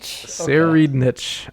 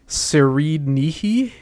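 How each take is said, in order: First: The name is said with English sounds, ending 'nitch'. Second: The name is said with Japanese sounds, ending 'nihi'.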